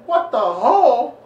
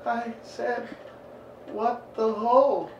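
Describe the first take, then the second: First: High, loud, drawn-out dad yell; mock outraged shout. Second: Put-on high, halting boy's confession; mock scared kid. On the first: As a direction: bellow it back in comic disbelief. Father's outraged repeat of son's words. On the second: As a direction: imitate a nervous child owning up slowly, pitched up.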